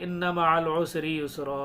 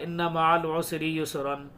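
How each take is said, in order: First: Recited with युसरा ending on a long open "raa", no n; pausal alif ending. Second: Recited with युसरन closing on a clear "-ran" nasal n; verse read with युसरन unclipped, n pronounced; full tanween ending. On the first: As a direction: drop the n and stretch the last vowel of युसरा. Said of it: "सब यही बोलते हैं". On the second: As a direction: end युसरन on a short "an" with the n sounded. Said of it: "ऐसे कोई नहीं पढ़ता". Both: Shown as a demonstration.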